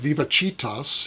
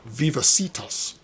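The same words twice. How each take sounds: First: It is pronounced the Catholic Church Latin way. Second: It is pronounced the modern English way. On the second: "a healthcare concern, which pronounces it"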